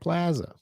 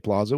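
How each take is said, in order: First: It is said in the Midwestern way. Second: It is said in a non-Midwestern way. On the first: "We say plaza" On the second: "We don't say plaza"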